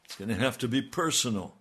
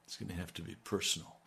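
First: Firmer, louder preacher's insistence; emphatic repeat. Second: Soft and quick, almost to himself; hushed quick preview; quick soft aside. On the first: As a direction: land it hard on "be". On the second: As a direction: toss it off quietly before the push. Preacher repeats line for emphasis. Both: Acted.

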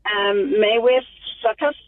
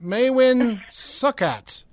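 First: "Maywith Suckus" said hesitantly, like a question; wrong pronunciation. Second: "Maywin Succat" said slowly and clearly, MAY-win SUK-at; correct pronunciation. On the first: Real, not acted. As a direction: stumble through "Maywith Suckus" as a guess. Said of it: "you're close". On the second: Shown as a demonstration. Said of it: "It's, it's spelled M A E W Y N".

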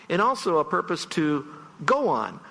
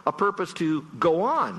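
First: "go" carries the peak, "go on" like a footing; "go" stressed, "on" dropped: a base to stand on. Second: "on" lands with the falling stress, "A purpose to go ON"; end-weight on "on": keep going. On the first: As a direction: hit GO so it means stand on. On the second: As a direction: lean on ON so it means keep going. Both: Shown as a demonstration. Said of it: "the emphasis can actually change the meaning".

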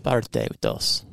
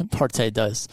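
First: Spanish accent with a tapped r in "Parte"; Spanish-accented "Parte dos". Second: Put-on American-accented "Parte dos" with a full English r; Anglicized Spanish in an American accent. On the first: Shown as a demonstration. Contrasted with the American version. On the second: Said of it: "Ex-, American".

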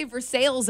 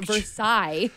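First: "Versailles" with the ending sounded like "sails"; Kentucky Versailles. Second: French-style "Versailles", silent final consonants; non-Kentucky Versailles. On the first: Co-host shows the Kentucky way, ver-SALES pronunciation. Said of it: "we say Versailles in Kentucky". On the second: Co-host rejects the French version for Kentucky, ver-SIGH pronunciation. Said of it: "It's not Versailles". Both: Shown as a demonstration.

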